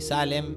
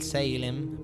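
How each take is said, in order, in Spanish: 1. El nombre se pronuncia a la latinoamericana. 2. El nombre se pronuncia a la inglesa. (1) "estamos en Latinoamérica, le vamos a decir" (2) "en su pronunciación original"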